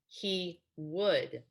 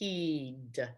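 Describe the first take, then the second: First: It is said as two separate full words. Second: It is said as one contracted syllable. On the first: "the two words" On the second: "the contraction"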